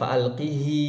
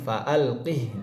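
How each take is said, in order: First: The final h is followed by a long vowel. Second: The final h is silent, with no vowel. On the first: The speaker calls it wrong. "bukan fa'alqihi, bukan e, dibaca e, mad tabi'i" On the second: The speaker calls it right. "dengan mensukunkan huruf ha"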